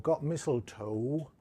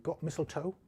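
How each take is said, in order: First: The final vowel is drawn out long. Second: The final vowel is cut short. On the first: "O would be a really long vowel sound there" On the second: "if I was doing a clipped accent"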